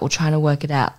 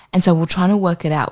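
First: Said in the usual way. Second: Fast and pushed out; quick eager version. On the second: Real, not acted. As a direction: rattle it off quickly.

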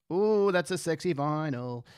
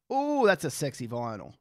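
First: Slow, lingering ooh of approval; drawn-out admiration. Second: Said in the usual way. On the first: Real, not acted. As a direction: savour every word, stretching it out.

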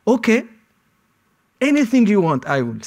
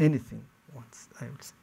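First: Higher, louder, eager to give in; frantic surrender to the interrogator; desperate pleading. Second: Much softer, lower, dying away; whispered-down surrender; resigned fading repeat. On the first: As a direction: beg him, say anything to stop it. Pleading with interrogator under threat. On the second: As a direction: let the words drain out defeated. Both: Retold or imitated.

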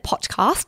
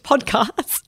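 First: "podcast" said as the listener misspelled it; "podcast" with the first syllable altered to "pot"; mistaken pronunciation. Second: Said in the usual way. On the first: Shown as a demonstration. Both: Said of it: "I'm assuming she meant podcast".

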